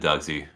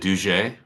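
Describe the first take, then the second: First: The name is said with an English-style pronunciation. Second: The name is said with a French-style pronunciation.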